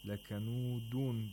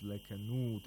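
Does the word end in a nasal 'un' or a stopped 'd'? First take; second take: nasal un; stopped d. First: The word ends with a nasal 'un' sound. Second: The word stops sharply on a final 'd'. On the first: The reading continues without a stop. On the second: The reader pauses at the end of the verse.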